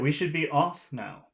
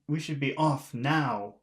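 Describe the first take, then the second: First: The word off carries the main stress. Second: The word now carries the main stress. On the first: The speaker calls it right. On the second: The speaker calls it wrong.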